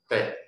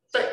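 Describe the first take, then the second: First: Low, short checked tone on 对; 对 as a short low syllable; fourth tone. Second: High, short forceful tone on 对; 对 as a short high punch; eighth tone. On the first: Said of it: "四声是低低音". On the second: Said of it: "八声是悬的低音". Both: Shown as a demonstration.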